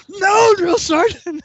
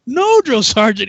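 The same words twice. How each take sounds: First: Slow, high mock-outraged repeat; incredulous echo. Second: Higher, louder, formal mock reply; recruit's refusal. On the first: Sergeant throws refusal back, drawn-out mock outrage. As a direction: drag it out in disbelief. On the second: Recruit refuses huge sergeant, stiff mock reply. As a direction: answer up like a dutiful private.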